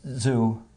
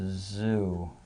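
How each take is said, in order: First: It is said tensely, squeezed and fast. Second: It is said relaxed, gently and slower.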